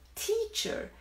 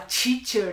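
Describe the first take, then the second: First: The first sound is a crisp t sound. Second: The first sound is a soft ch sound. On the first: The speaker calls it right. "É teacher" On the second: The speaker calls it wrong. "Teacher é aqui, é o som do T por- em português. Esse T é inadmissível no inglês"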